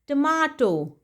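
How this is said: It is said with a British pronunciation.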